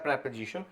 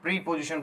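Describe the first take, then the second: First: The first syllable is a short 'preh' sound. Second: The first syllable is a long 'pree' sound. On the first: The speaker calls it right. "Exact pronunciation इसका जो रहता है वो होता है प्रेपोजिशन" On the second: The speaker calls it wrong. "इसे कुछ लोग प्री पोजिशन बोलते हैं"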